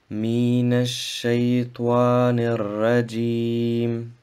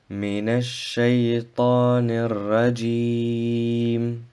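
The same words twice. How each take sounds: First: The vowel in the last word is kept short. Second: The vowel in the last word is drawn out long. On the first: The speaker calls it wrong. "und nicht" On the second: The speaker calls it right. "wird drei bis fünf Harakat verlängert"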